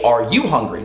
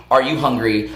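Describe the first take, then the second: First: "you" made the prominent word; stress on YOU. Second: Said in the usual way. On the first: Retold or imitated. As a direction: quote the question with weight on "you". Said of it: "You're just like". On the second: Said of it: "like you normally do".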